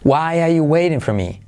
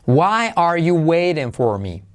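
First: The r sounds are dropped and it is faster. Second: Every word is said fully, with its r sounds. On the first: "quitar las dos R's. Al hacerlo más rápido" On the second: "pronunciando todas las palabras"

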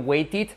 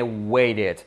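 First: The middle t is a hard, clear t sound. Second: The middle t is a quick tap like r. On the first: The speaker calls it wrong. "Muchos de vosotros habréis escuchado decir waited. Olvidaros" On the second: The speaker calls it right. "la T como una R, la E como una E"

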